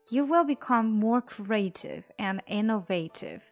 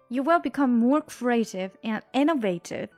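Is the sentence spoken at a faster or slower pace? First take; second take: slower; faster. First: It is spoken at a slower pace. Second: It is spoken at a faster pace.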